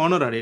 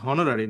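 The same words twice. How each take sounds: First: অনারারি starting on the vowel, no H; correct silent-H pronunciation. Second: হনারারি with the H sounded; wrong pronunciation with H. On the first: Teacher explains why sounds matter, silent H in অনারারি. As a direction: drop the "h", open অনারারি on "o". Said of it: "এটা কিন্তু অনারারি". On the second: Teacher shows students what to avoid, H voiced in হনারারি. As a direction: begin হনারারি on an audible "h". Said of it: "এটা হনারারি না". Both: Shown as a demonstration.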